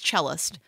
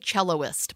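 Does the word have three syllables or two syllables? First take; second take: two syllables; three syllables. First: The word has two syllables, cell-ist. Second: The word has three syllables, cello-ist. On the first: The speaker calls it right. "but it's cellist" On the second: The speaker calls it wrong. "I always want to say celloist"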